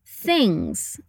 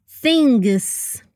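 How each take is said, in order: First: "things" with tongue between the teeth, no hard G at the end; "things" ending softly in NG, no G released; soft TH, subtle NG. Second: "things" with a hard G sounded after the NG; wrong "things" with an extra hard G; hard G added. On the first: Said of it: "Put your tongue between your teeth". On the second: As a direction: say "things" as "thing-guss", the G fully released. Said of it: "not things". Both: Shown as a demonstration.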